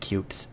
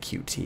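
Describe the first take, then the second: First: The name is said as one single word. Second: The name is spelled out as two letters. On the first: "it's apparently supposed to be cute" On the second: "I still want to say Q T because that just sounds better"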